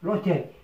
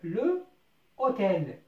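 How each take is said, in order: First: The e of le is dropped and joined. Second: The e of le is kept as separate syllable. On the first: The word accepts elision, so the h is mute. The speaker calls it right. "On a éludé le E" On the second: This is the underlying form before elision. The speaker calls it wrong. "أصلها le hôtel"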